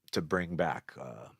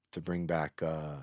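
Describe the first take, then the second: No difference in how they are said.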